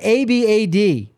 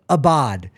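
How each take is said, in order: First: It sounds like the English phrase 'a bad'. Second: The second syllable rhymes with 'nod', like 'bod'. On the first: The speaker calls it wrong. "It's not a bad" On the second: The speaker calls it right. "go the opposite on both syllables. And bod"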